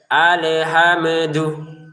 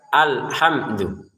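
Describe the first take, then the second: First: An extra e vowel is added after the m. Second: No extra vowel is added after the m. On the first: The speaker calls it wrong. "Jangan sampai" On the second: The speaker calls it right. "gak ada e-nya"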